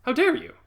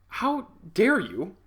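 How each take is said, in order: First: High, loud how dare you, snapped off; indignant shout. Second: Drawn-out offended how dare you, high and slow; slow indignant. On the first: To his manager, a loud mock-outraged shout. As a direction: yell it as the final blow. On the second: To his manager, slow mock-offended outrage. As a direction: stretch it out, wounded pride. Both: Retold or imitated.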